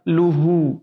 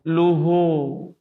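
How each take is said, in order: First: The long vowel stays a pure u sound. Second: The long vowel drifts toward an o sound. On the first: The speaker calls it right. "Yang benar luhu" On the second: The speaker calls it wrong. "agak mirip-mirip O"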